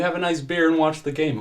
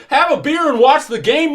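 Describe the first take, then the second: First: Quick, higher coaxing officer; hurried, placating cop voice. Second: Very high, loud incredulous shout; furious echo at full volume; outraged father. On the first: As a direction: coax him into going home. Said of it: "Earl says". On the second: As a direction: yell it back in disbelief. Irate father echoes officer in outrage. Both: Acted.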